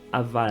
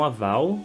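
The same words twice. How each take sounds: First: The word ends with a clear L sound. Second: The word ends with a U-like vowel sound. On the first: The speaker calls it right. "mas sim aval" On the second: The speaker calls it wrong. "Não aval"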